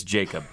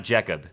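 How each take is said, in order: First: "Jacob" with a long "ay", JAY-kub; corrected name. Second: "Jacob" said with its first vowel off; mispronounced name. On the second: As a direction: say "Jacob" botched, like "Jeckub". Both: Shown as a demonstration. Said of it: "I butchered your middle name".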